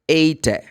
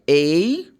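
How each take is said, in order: First: The final E is sounded as a vowel. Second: The final E is silent. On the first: The speaker calls it wrong. "if you put like the short E for this word" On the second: The speaker calls it right. "You don't pronounce the magic E"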